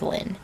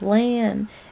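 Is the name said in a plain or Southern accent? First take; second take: plain; Southern. First: The name is said in a plain accent. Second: The name is said in a drawling Southern accent. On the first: "her name is Lynn" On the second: "except I do it a lot more obnoxious"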